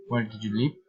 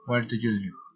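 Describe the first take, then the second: First: "live" rises at the end; polite, interested lift on "live"; friendly rising intonation. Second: "live" falls at the end; matter-of-fact question, falling on "live"; falling intonation. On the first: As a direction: let the question climb on "live". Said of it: "reason, intonation". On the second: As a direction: let the question drop on "live". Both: Shown as a demonstration.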